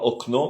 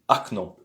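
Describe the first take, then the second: First: The first vowel is a full o sound. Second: The first vowel is a weak a sound. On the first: The speaker calls it wrong. "on dit pas okno" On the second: The speaker calls it right. "mais on dit acno"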